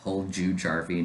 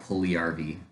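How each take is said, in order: First: The J sounds in the name are clearly pronounced. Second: The J sounds in the name are dropped. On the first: The speaker calls it right. "Pronounce the J's" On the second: The speaker calls it wrong. "not Puliarvi"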